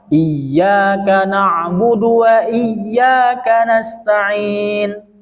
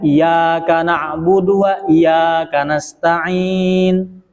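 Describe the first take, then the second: First: The doubled consonant is pressed and held long. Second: The doubled consonant is said short, not held. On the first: The speaker calls it right. "dia harus ditekan" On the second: The speaker calls it wrong. "karena dia meniadakan tasdid"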